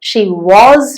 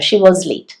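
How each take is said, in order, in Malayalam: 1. 'was' ലെ സ്വരാക്ഷരം പൂർണവും ഊന്നിയതുമാണ്. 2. 'was' ലെ സ്വരാക്ഷരം ചെറുതും ചുരുങ്ങിയതുമാണ്.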